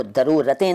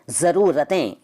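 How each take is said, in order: First: दरूरतें, d in place of z. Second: Said in the usual way. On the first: Shown as a demonstration. Teacher showing the rejected form, दरूरतें with d for z. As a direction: open दरूरतें on d. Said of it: "नहीं कहते". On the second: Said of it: "दरूरतें नहीं कहते".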